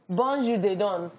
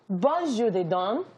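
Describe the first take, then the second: First: It is read in the speaker's ordinary accent. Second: It is read with a put-on French accent.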